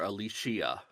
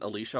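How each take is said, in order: First: The name is said with an extra syllable. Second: The name is said without an extra syllable.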